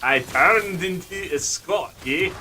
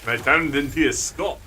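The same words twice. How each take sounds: First: Slow, higher, heavy Scottish brogue; drawn-out, thicker Scottish accent. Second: Lighter Scottish brogue; Scottish accent, easy and unforced. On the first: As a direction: lean into the Scots, stretching the vowels. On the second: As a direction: say it with a modest Scots burr. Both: Shown as a demonstration. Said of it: "I can go much more of the brogue".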